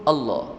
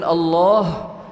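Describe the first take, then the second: First: The middle vowel is cut short. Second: The middle vowel is drawn out long. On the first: The speaker calls it wrong. "menghilangkan uh, apa tu mad pada kalimah Allah" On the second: The speaker calls it right. "yang sepatutnya disebutkan Allah"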